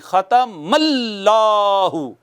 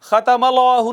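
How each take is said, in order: First: The doubled consonant is held strongly and forcefully. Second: The doubled consonant is said lightly and loosely. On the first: The speaker calls it right. "जोर से पिछले हर्फ के ऊपर शद है ना, तो तशद्दुद करना है, जोर से पढ़ना है" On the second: The speaker calls it wrong. "ये खतमल्लाहु नहीं है"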